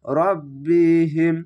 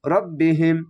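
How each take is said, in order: First: রব্বিহিম spelled out slowly, doubled ব held; slow recitation. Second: রব্বিহিম run together fast; quick recitation. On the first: Teacher first reads the word slowly. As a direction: linger on রব্বিহিম syllable by syllable. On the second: Teacher shows how fast to read it. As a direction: rattle off রব্বিহিম in one breath. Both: Shown as a demonstration. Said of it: "অনেক দ্রুত পড়তে হবে".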